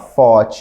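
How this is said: It is said with a Brazilian-accented pronunciation. The speaker calls it wrong. "não falar thought ou thought"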